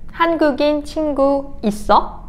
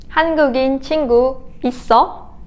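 The two takes are said the same way.

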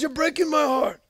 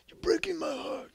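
First: It is said in his normal voice. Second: It is said in a Godfather impression.

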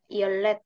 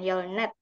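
First: The second syllable begins with an l sound. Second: The second syllable begins with an n sound. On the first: The speaker calls it right. "kenapa jadi baca yolet" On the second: The speaker calls it wrong. "bukan yolnet"

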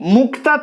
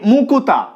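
First: The k and t are said together as a cluster. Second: A u vowel is heard between k and t. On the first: "এখানে কয়ত যুক্ত ব্যঞ্জন রয়েছে" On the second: "সেই কয়ত এর মাঝখানে একটা রস্যকার চলে আসলো"

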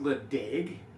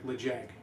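First: The second syllable starts with a D sound. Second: The second syllable starts with a J sound. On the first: "it's spelled Le Deg" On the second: "it's kind of like Le Jag, I think is how you say it"

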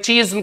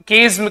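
First: The word begins with a ch sound. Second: The word begins with a hard k sound. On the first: The speaker calls it wrong. "चीज्म कर सकते हैं" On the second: The speaker calls it right. "लेकिन ये कीज्म पढ़ा जाएगा"

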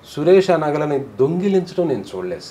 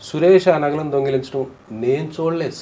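First: The word దొంగిలించడం carries the emphasis. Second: The word నేను carries the emphasis. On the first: He may have handled them, but was not seen stealing. "దొంగిలించడం మాత్రం చూడలేదు" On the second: Others saw it, but not the person speaking. "నేను చూడలేదు ఇంకెవరెవరో చూశారు"

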